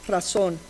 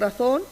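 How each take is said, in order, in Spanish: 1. La consonante del medio es un sonido s. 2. La consonante del medio es un sonido th. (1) "ponen en su lugar la S" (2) "Estoy suponiendo la pronunciación interdental"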